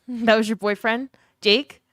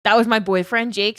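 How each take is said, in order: First: Laughing disbelief, rising at the end; incredulous question. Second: Said in the usual way. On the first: Real, not acted. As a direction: ask it back, amused and unbelieving.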